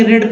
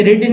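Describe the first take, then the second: First: "रीड" said as "red", with a short e; past-tense vowel demo. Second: "रीड" with a long ee, like English "reed"; wrong vowel demo. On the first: Teacher correcting learners' reading, "रीड" pronounced like "red". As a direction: make "रीड" rhyme with bed. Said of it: "रीड पढ़ेंगे". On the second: Teacher showing learners the mistaken reading, "रीड" with long ee. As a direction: say "रीड" as the present tense, rhyming with need. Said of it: "इसे रीड नहीं पढ़ेंगे". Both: Shown as a demonstration.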